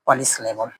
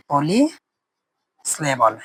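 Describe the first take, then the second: First: Said in the usual way. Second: polysyllable stretched out very slowly; slow and drawn out. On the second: Shown as a demonstration. Teacher spelling out polysyllable slowly for students. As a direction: draw out polysyllable at a crawl. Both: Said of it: "এটাকে বলা হবে polysyllable".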